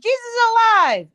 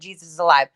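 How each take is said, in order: First: It is said loudly, with excited energy. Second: It is said in a plain, calm voice. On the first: The speaker calls it right. "You got to be like" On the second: The speaker calls it wrong. "You can't just say it like that"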